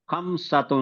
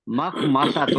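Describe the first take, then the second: First: خمسۃ read as "khamsah", missing the m and s sounds; خمسۃ said "khamsat" instead of makhmasa; misread word. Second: مخمصۃ read fully as "makhmasat"; مخمصۃ with the opening "ma" restored; corrected word. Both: Real, not acted. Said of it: "مخمصۃ ہے سر".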